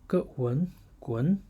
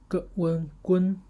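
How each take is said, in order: First: The syllable is said with the second tone. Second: The syllable is said with the first tone. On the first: "second tone" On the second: "first tone"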